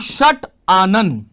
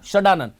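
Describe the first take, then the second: First: The words stay apart with a t sound. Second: The words merge into one with a d sound. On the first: The speaker calls it wrong. "मैं ऐसे नहीं कह सकता" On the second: The speaker calls it right. "संधि नियमों के तहत ये ट जो है वो ड बन जाएगा"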